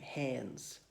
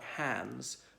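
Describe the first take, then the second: First: The vowel sounds close to an E. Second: The vowel is the ordinary A sound. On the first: "it's got an E in the middle, saying hands" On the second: "like hands"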